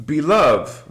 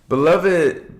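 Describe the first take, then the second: First: Said in the usual way. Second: Beloved, drawn out in chant-like light language; light language word. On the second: Shown as a demonstration. Streamer greets chat in light language, intoned. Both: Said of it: "It's a light language".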